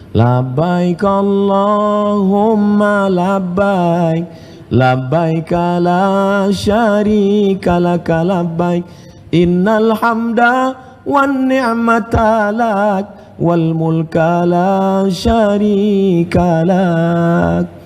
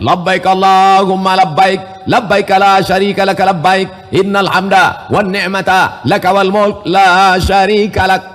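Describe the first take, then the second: First: It is said softly and gently. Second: It is said loudly and forcefully.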